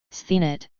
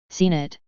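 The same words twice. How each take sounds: First: "Seen it" lisped with a th after the s; tongue-damaged lisp on "Seen it". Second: Said in the usual way. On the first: A narrator's reading. Jaraz answering where he went online, lisping "Seen it". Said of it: "Jaraz lisped". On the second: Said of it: "Gavin exclaimed".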